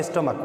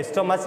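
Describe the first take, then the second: First: "स्टोमक" ending in a hard k sound; correct pronunciation. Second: "स्टोमच" with a final ch sound, shown as the wrong way; teacher says "स्टोमच" ending in ch to warn against it; wrong pronunciation. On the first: Teacher giving students the right "स्टोमक" with a final k. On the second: Biology teacher showing students the mistaken "स्टोमच" ending in ch. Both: Shown as a demonstration. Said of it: "स्टोमच नहीं बोलेंगे".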